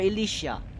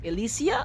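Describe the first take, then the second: First: The name ends with an 'sh' sound. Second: The name ends with an 's' sound. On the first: "Elysia with the S H at the end" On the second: "Elysia with the S"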